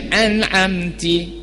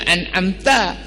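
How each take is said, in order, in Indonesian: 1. Suku kata terakhir diakhiri dengan vokal 'i'. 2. Suku kata terakhir diakhiri dengan vokal 'a'. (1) "tapi dia baca an'amti" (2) "patutnya an'amta"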